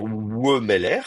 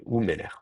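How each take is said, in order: First: Wemeler with a separate W-schwa at the start; drawn-out "Wemeler", opening on a W glide; wrong pronunciation. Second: Wemeler opening on a pure "ou": ou-mé-lèr; "Wemeler" with its first syllable reduced to "ou"; corrected pronunciation. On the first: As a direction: say "Wemeler" starting on a slow "we", not "ou". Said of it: "On va pas dire". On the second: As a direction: say "Wemeler" as "oumeler", softer and falling. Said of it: "le Wemeler va devenir". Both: Shown as a demonstration.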